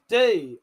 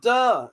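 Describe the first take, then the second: First: The vowel is a long 'ee'. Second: The vowel is a short, neutral 'uh'. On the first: The speaker calls it right. "It's D" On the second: The speaker calls it wrong. "No, it's not duh"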